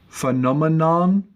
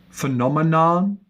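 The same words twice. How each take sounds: Both takes have the same delivery.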